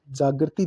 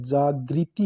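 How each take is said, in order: First: जागृति read as "jaagarti"; misspelt reading. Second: जागृति said "jaa-gri-ti"; correct pronunciation. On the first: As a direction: say जागृति with "gar" for "gri". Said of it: "जागृति दे रखा है". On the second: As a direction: give जागृति a clear "gri" syllable. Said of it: "जागृति होता है". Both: Shown as a demonstration.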